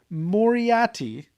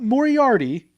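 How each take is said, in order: First: It is said with no R before the T. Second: It is said with an R before the T. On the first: The speaker calls it right. "There's no second R" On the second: The speaker calls it wrong.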